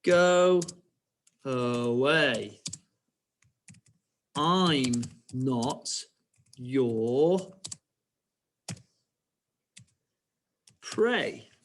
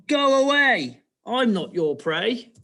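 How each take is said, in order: First: Word by word with long pauses; stretched words, long gaps between; slow dictation. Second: High, loud piggy shooing; acted little pig sending someone off; piggy's reply. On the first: Shown as a demonstration. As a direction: dictate very slowly for pupils writing along. Same line dictated slowly for writing. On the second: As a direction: cry out high, then ease down. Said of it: "And then she carries on".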